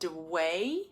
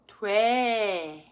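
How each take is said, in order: First: Consonant and vowel separate, ending in a swinging glide. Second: Brief consonant blends in; the vowel stays steady. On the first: The speaker calls it wrong. "the sound of the consonant and the vowel separates" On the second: The speaker calls it right. "the consonant sound needs to be almost just an inkling of a sound"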